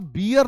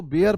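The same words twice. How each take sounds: First: बियर with an "ee" vowel, like beer; wrong pronunciation. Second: बेयर with an "ay" vowel, like "air"; correct pronunciation. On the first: Teacher warning students off the mistake, बियर with "ee". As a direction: say बियर as "bee-yer". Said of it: "आप बियर नहीं बोल सकते हैं". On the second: Teacher giving students the correct reading, बेयर with "ay". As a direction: say बेयर as "bair". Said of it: "इसको बेयर पढ़ेंगे". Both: Shown as a demonstration.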